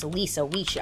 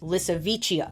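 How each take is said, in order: First: The name is said like Lisa Wicia. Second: The name is said like Lissavicia. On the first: The speaker calls it wrong. "which I kept pronouncing as Lisa Wicia in my head" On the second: The speaker calls it right. "but it's Lissavicia"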